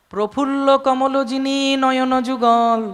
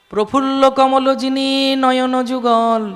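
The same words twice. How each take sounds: Both takes have the same delivery.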